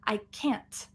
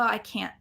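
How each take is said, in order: First: The final T is released with a puff. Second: The final T is stopped without release. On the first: "you add a little extra T for clarity if you need to" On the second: "generally, it's going to be that stop T"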